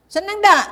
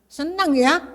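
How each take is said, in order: First: Loud, high rousing call to wake them; calling out to congregation. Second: Said in the usual way. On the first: Real, not acted. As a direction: shout the question out to the whole hall. Pastor rouses sleepy congregation.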